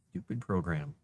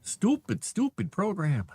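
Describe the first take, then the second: First: Said in the usual way. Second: Much higher and louder, exasperated; fed-up outburst. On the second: Real, not acted. Writer fed up with the AI tool, loud outburst. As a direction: blow up at the software.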